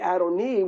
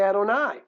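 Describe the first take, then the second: First: The word ends with an 'ee' vowel. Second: The word ends with an 'ai' vowel. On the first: This is the plain 'my lord' form, like Avi or Aki. "we don't say Adoni" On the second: This is the customary form, treating the word as special. "we say Adonai"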